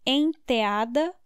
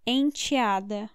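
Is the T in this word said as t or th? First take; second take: th; t. First: The T is softened toward a th sound. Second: The T is said as a plain t. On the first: "The T can be th or t" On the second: "The T can be th or t"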